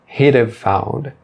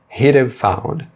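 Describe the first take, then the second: Both takes have the same delivery.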